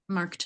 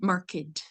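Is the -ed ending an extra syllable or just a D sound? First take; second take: just D; extra syllable. First: The ending is only a D sound. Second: The ending is said as a separate syllable. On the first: The word is used as a verb. "It's it's the just the D" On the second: The word is used as an adjective. "we pronounce it like marked, but that's when it's an adjective"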